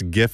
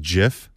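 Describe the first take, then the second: First: The word begins with a hard g sound. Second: The word begins with a j sound. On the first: The speaker calls it right. "When people pronounce GIF" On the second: The speaker calls it wrong. "as JIF. like it's not a peanut butter"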